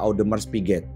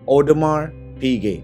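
First: The name is read letter by letter as spelled. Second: The name is said in its original pronunciation. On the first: The speaker calls it wrong. "Beberapa orang Indonesia sering menyebutnya" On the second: The speaker calls it right. "cara baca yang benar"

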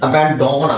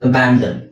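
First: The last syllable has a full o vowel. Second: The last syllable has a weak uh vowel. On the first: The speaker calls it wrong. "ಅಬ್ಯಾಂಡನ್ ಆಗಲ್ಲ" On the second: The speaker calls it right. "ಓನು ಸಹ ಇಲ್ಲಿ ಆ ಅಂತ sound ಆಗುತ್ತೆ"

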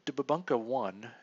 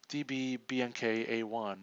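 First: The name is blended into one spoken word. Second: The name is spelled out letter by letter.

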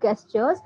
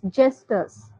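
First: The word begins with a hard g sound. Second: The word begins with a j sound. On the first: The speaker calls it wrong. "That is not gestures" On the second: The speaker calls it right. "that is pronounced as ja"

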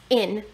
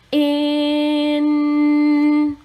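First: The word is said fast, sounds blended together. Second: The word is said slowly, sounds stretched out. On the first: "Say it fast" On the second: "Do it with me"

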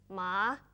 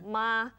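First: The pitch falls and then rises again. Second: The pitch stays flat and level throughout. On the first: It means horse. "it's falling and then rising" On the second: It means mother. "it's a flat tone"

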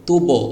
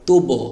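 The two takes are said the same way.

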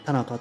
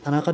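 First: It uses the local place-name pitch accent pattern. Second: It uses the usual surname pitch accent pattern. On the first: The speaker calls it right. "田中というふうに" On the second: The speaker calls it wrong. "田中ではなくて"

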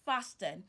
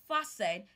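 First: The word is said with a 't' sound. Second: The word is said with no 't' sound. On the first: The speaker calls it wrong. "and not fasten" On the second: The speaker calls it right. "It's fasten"

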